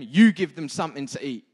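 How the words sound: It is said forcefully with strong emphasis. It is a blunt command. "I think I put emphasis on the way Jesus said that"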